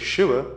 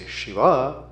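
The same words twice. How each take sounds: First: The final vowel is short. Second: The final vowel is drawn out long. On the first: It names the male god. "it is the Triambak, the three-eyed Shiva" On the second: It names the god's female consort. "it means Shakti, his consort"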